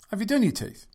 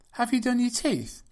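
First: It sounds like it assumes a yes. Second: It sounds like a genuinely open question. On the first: The asker expects it is already done. "With the intonation suggesting that she already has" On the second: The asker does not know the answer.

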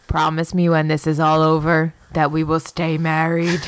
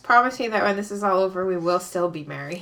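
First: It is said in a loud, booming voice. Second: It is said in a normal, quieter voice.

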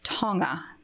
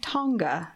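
First: The ng is said the native way. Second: The ng is said the usual English way. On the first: The speaker calls it right. "I learned that it's Tonga" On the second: The speaker calls it wrong. "I'm not saying Tonga"

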